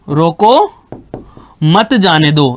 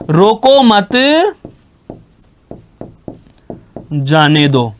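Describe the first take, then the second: First: There is a pause right after the first word. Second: There is a pause right after the second word. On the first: Stop him; do not let him go. "विराम चिन्ह का प्रयोग रोक के ठीक बाद में अल्प विराम लगा दिया" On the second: Do not stop him; let him go. "विराम चिन्ह को जैसे ही मत के आगे लगा दिया"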